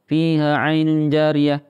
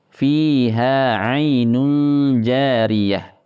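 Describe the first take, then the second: First: The long vowels are cut short and read quickly. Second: The long vowels have an even, moderate length. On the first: The speaker calls it wrong. "Atau kurang panjang, terlalu cepat bacanya" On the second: The speaker calls it right. "Jadi yang benar adalah seperti ini, ... Jadi harus stabil"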